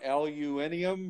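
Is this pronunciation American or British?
British. It is said with five syllables, British style.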